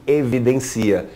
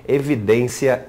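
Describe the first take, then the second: First: "evidencia" stressed e-vi-den-CI-a. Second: "evidência" stressed e-vi-DÊN-cia. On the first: Teacher contrasts noun and verb, stress on CI. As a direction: lean on the CI in "evidencia". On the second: Teacher contrasts noun and verb, stress on DÊN. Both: Shown as a demonstration. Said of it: "temos a diferença de".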